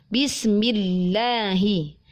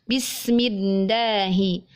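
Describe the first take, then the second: No difference in how they are said.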